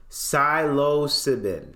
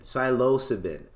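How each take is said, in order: First: Psilocybin sounded out slowly, syllable by syllable; carefully sounding out psilocybin; slow careful pronunciation. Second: Said in the usual way. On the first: Shown as a demonstration. Streamer tries the hard word psilocybin for viewers, slowly.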